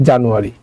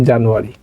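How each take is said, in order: Both takes have the same delivery.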